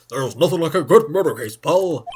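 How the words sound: It is said in a Gumshoe impression voice.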